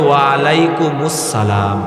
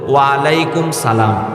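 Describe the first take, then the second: First: Alaikum runs into 'us-salam' with a linking u. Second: Alaikum is followed by a bare 'salam'. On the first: The speaker calls it right. "বরং সঠিকটা হবে" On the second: The speaker calls it wrong. "ভুল"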